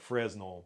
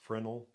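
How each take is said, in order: First: The word is said the way it is spelled. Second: The word is said differently from its spelling. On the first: The speaker calls it wrong. "it looks like Fresnel" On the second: The speaker calls it right. "it's pronounced Fresnel"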